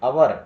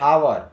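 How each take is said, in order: First: The word begins without an h sound. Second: The word begins with an h sound. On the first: The speaker calls it right. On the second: The speaker calls it wrong.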